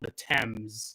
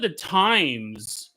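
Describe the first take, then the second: First: The name is said to sound like 'tems'. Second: The name is said to sound like 'times'. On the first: The speaker calls it right. "It's called the Thames" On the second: The speaker calls it wrong. "I called it the Times"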